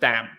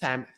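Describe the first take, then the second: First: The first sound is a stop, not an S. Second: The first sound is like th. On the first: "That's stopping. That's you stop the S" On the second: "Or it might be a dentalized"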